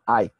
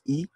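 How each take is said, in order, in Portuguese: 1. Ela é dita com pronúncia inglesa. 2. Ela é dita com pronúncia portuguesa. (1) "eles pronunciam I" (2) "nós pronunciamos I"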